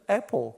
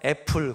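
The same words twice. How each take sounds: First: It is said with a native-like English pronunciation. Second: It is said with a plain Korean pronunciation. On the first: "둘째 딸은 애플 그래요" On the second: "첫째 딸은 그냥 애플"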